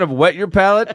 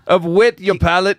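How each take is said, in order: First: It is said in the speaker's ordinary accent. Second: It is said in an Irish-sounding put-on accent.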